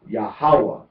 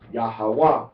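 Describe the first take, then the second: First: The stress is on the second syllable. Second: The stress is on the third syllable. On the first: "Pronunciation on the second on the second syllable is Yahweh" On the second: "or emphasis on the third syllable is Yahweh"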